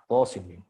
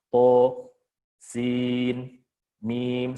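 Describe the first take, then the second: First: The letter names run together without a break. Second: Short silent stops separate the letter names. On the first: "Sebagai idgham riwayah" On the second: "membaca dengan saktah"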